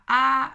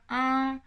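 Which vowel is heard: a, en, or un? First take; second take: a; un. First: The vowel is a plain oral a sound. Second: The nasal vowel sounds like French un. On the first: "il n'y a même plus de nasalité ici" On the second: "ils la prononcent un petit peu comme un"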